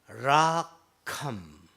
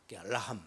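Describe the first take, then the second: First: It is said with careful, exact pronunciation. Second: It is said in a plain, everyday way. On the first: "정확하게 발음하면요" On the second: "그냥 보통 하는 말"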